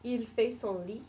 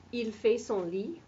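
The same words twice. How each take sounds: First: Rising question tune on Il fait son lit; spoken with question intonation. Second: Rising question tune on Il fait son lit; rising tune turns it into a question; question by intonation. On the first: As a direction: let lit rise into a question. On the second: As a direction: lift the end of lit into a question. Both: Shown as a demonstration. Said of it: "I'm just using my voice to make that into a question".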